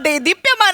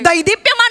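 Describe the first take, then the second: First: The first syllable is said as 'de'. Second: The first syllable is said as 'dai'. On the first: The speaker calls it right. "देदीप्यमान म्हणायचं असतं" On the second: The speaker calls it wrong. "दैदिप्यमान म्हणायचं नसतं"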